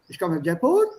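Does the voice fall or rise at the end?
rise. The voice rises at the end. The speaker calls it wrong.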